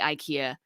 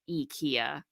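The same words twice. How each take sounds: First: It is said with an English pronunciation. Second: It is said with a Swedish pronunciation. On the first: This is how the speaker usually says it. "I say IKEA" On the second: This is how people from Sweden say it. "the Swedes say IKEA, and that is the correct pronunciation"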